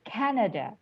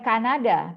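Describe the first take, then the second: First: It is pronounced with English sounds. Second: It is pronounced with Indonesian sounds. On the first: The speaker calls it right. "dalam bahasa Inggris pengucapannya adalah Canada" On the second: The speaker calls it wrong. "jawabannya bukan Kanada"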